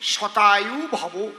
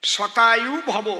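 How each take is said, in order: No difference in how they are said.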